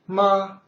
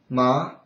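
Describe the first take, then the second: First: The word is said with the first tone. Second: The word is said with the second tone. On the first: "ma first" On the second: "ma second"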